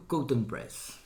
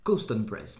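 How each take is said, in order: First: "Cowton" said without its middle s; mispronounced brand name. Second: "Cowston" with an s before the t; careful correction, sounding the s in "Cowston"; corrected brand name. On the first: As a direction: drop the s in "Cowton Press". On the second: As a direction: put the s back into "Cowston Press". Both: Real, not acted.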